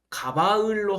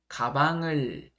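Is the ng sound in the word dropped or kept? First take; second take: dropped; kept. First: The ng sound moves away from the second syllable. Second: The ng sound stays at the second syllable. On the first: The speaker calls it wrong. "가바을로 할까요?" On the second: The speaker calls it right. "변하지 않습니다"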